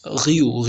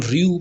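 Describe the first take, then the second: First: "रियू" with a throaty French r, like ghee-yoo; French pronunciation. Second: "रियू" with a plain English-style r, ree-yoo; English reading. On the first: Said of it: "but ये French word है". ("रियू" French ढंग से, र की जगह गले का ग़) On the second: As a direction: read "रियू" as in English, r from the tongue. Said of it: "इसको हम रियू पढ़ रहे होते हैं इंग्लिश में". ("रियू" अंग्रेज़ी ढंग से, साफ़ र के साथ) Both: Shown as a demonstration.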